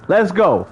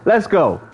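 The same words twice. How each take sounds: The two takes are said the same way.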